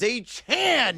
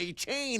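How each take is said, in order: First: The last syllable rhymes with pan. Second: The last syllable rhymes with pain. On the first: The speaker calls it right. "It is A Chan now" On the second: The speaker calls it wrong. "It is not A Chain anymore"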